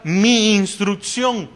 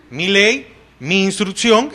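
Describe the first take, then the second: First: "mi instrucción" drawn out slowly, leaning on "mi"; emphasized mi instrucción. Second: Said in the usual way. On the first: Shown as a demonstration. Preacher stressing the Hebrew word to the congregation, "mi instrucción" said slowly. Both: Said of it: "se enfatiza la palabra".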